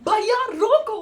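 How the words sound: It is yelled loudly in panic.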